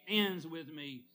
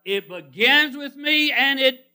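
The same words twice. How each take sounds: First: Soft drop after a big build-up; hushed landing. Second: Loud, high, slow preaching; big pulpit build-up; soaring proclamation. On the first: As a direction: let it fall quietly and finally. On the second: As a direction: swell and hold it before the drop. Builds contrast of beginning and end. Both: Retold or imitated.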